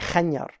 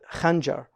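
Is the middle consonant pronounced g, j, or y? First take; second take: y; j. First: The middle consonant sounds like y. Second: The middle consonant sounds like j. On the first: This is the eastern Arabian dialect form. "they'll say khanyar" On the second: This is the standard form. "like the khanjar will be khanyar"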